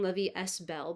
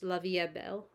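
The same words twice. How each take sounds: First: The s in 'est' is pronounced. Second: The s in 'est' is silent. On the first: The speaker calls it wrong. "I keep saying" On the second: The speaker calls it right. "I don't think in French they pronounce the S, just"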